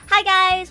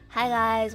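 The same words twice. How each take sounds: First: The voice is lively and high in energy. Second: The voice is flat and low in energy. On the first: The speaker sounds cheerful and engaged. The speaker calls it right. "I always try to be like really energetic and chipper" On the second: The speaker sounds lifeless. The speaker calls it wrong. "I try not to talk like this in my vlogs"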